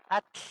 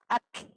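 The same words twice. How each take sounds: First: The tl is released out the sides of the mouth. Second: The same.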